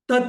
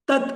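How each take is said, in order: The two takes are said the same way.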